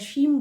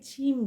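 First: The word begins with an 'sh' sound. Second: The word begins with an aspirated 'ch' sound. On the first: The speaker calls it right. "যেটা শিম বলি" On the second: The speaker calls it wrong. "অনেকে ছিম বলছেন"

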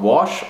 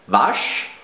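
First: It is pronounced as an English word. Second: It is pronounced as a German word.

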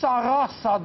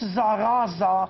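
First: The word is said with S sounds. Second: The word is said with Z sounds. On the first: The speaker calls it right. "Poate că se citește cu S" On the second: The speaker calls it wrong. "Nu e ca la Zara"

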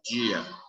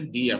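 First: The first consonant is drawn out and pulled. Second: The first consonant is short and plain. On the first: This is how people from another region say it. "Para eles é dia. Dia. Eles puxam muito" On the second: This is how the speaker's own group says it. "Para a gente é dia"

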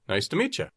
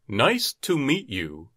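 First: Meet and you blend together into one sound. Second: Meet and you are said as separate words.

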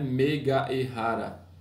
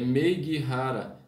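First: The final A of meiga is fully pronounced. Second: The final A of meiga is dropped into E. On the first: The speaker calls it wrong. "não é meiga e rara" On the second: The speaker calls it right. "Vejam que o A praticamente é apagado, vai direto pro E"

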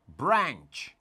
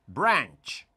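The two takes are said the same way.

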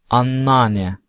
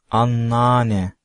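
The two takes are said the same way.

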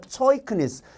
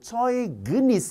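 First: The middle consonant is a voiceless k sound. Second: The middle consonant is a voiced g sound. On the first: The speaker calls it right. "얘는 발음이 크란 말이에요" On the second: The speaker calls it wrong. "어이구 어이구 큰일 났네"

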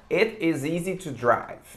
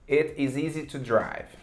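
The two takes are said the same way.

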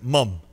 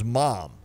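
First: The vowel is a British-style 'mum' sound. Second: The vowel is an open American 'mom' sound. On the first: The speaker calls it right. "they say it like the Brits say it" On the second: The speaker calls it wrong. "I just assumed it was mom"

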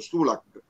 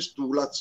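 First: The name ends with a k sound. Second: The name ends with a z-like sound. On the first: The speaker calls it wrong. "Floriana ha sbagliato perché ha detto Stulak" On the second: The speaker calls it right. "si dice Stulaz"

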